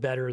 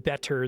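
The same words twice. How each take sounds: First: The middle consonant sounds like a soft D. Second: The middle consonant is a crisp T sound. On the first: "I tend to pronounce my T's as D's. I say" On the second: "I don't say"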